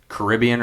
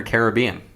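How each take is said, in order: First: Caribbean stressed on RIB; first pronunciation of Caribbean. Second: Caribbean stressed on BE; second pronunciation of Caribbean. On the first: Host asks which way to say it, Caribbean as kuh-RIB-ee-un. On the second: Host offers the other way, Caribbean as care-uh-BEE-un. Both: Shown as a demonstration. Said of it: "Caribbean or Caribbean".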